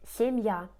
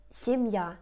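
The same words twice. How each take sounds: The two takes are said the same way.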